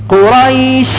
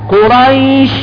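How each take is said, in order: Both takes have the same delivery.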